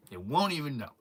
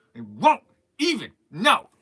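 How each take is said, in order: First: Said in the usual way. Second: "won't", "even", "know" each punched separately; dramatic gaps between "won't", "even" and "know"; emphatic repeat. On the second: Acted.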